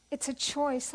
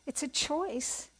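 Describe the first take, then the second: First: Said in the usual way. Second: Slow, weighted words, each one set apart; slow emphasis. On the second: Real, not acted. Speaker stresses to her audience that listening is a choice, slowly. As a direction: let the point sink in slowly.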